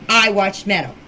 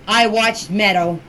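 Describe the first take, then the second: No difference in how they are said.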